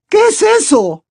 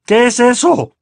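First: High, loud alarmed question; terrified aunt's high-pitched cry; gasping fright. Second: High, loud growled demand; tense, indignant growl; angry growl. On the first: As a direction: gasp it out in a high panic. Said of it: "preguntó jadeando tía Petunia". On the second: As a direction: demand it like an irate uncle. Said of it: "gruñó tío Vernon". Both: A narrator's reading.

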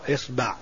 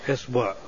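First: إصبع as "isba'", with "a" after the b; isba', second vowel open in إصبع; fatha on ba. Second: إصبع as "isbu'", with "u" after the b; isbu', second vowel rounded in إصبع; damma on ba. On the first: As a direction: say إصبع with a short "a" on the ba. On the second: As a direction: say إصبع with a short "u" on the ba. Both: Shown as a demonstration. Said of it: "مع الحركات الثلاث في الباء".

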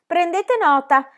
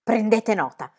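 First: Slow, high echo, stretching nota; mock the order back, drawn out; cheeky echo. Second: Irritated. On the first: Pippi echoes the teacher mockingly. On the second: A narrator's reading. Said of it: "serrò le labbra irritatissima".

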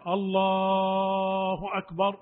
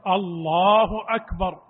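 First: أكبر drawn out very slowly; wrong stretching. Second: الله أكبر firm and without stretching; correct takbir. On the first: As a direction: drag the takbir out in a chant. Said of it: "ما يقول". (الله أكبر ممدودة في غير محلها) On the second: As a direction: say الله أكبر cleanly and evenly. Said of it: "وإنما يقول". (الله أكبر بلا مد) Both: Shown as a demonstration.

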